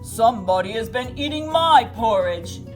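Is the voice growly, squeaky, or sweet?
growly. The voice is loud, deep and growly. "he said in his loud, growly voice"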